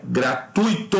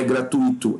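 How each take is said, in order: First: "gratuito" slowly broken up as gra-TÚI-to; correct diphthong graTÚIto. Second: "gratuito" in four syllables, gra-tu-Í-to; wrong hiatus gratuÍto. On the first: Teacher correcting students, slow emphatic gra-TÚI-to. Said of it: "é gratuito". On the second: Teacher rejecting the mistake, gra-tu-Í-to stressed on Í. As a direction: split the ui in "gratuito", beat on Í. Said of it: "Não é gratuito". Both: Shown as a demonstration.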